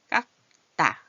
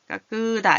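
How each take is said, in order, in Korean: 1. 첫 음절 뒤에는 추가 모음이 나오지 않아요. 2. 첫 음절 뒤에 모음이 하나 들어가요.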